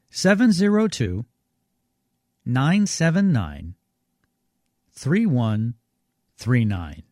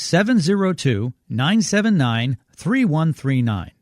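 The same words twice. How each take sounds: First: The number is read more slowly. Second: The number is read at normal speed.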